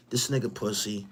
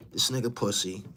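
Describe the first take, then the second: No difference in how they are said.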